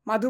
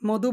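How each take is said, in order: First: The first vowel is an open 'a' sound. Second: The first vowel is a rounded 'o' sound. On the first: "মাধু না বলি" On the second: "আমি মধু বলি"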